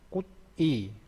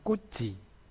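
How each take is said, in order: First: The syllables are said separately with a t. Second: The syllables link and the t becomes ch.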